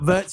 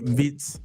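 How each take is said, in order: First: The name has an 'ur' vowel sound. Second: The name has a short 'ih' vowel sound. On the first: The speaker calls it wrong. "It's not vert, you know" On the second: The speaker calls it right. "That's how you pronounce it"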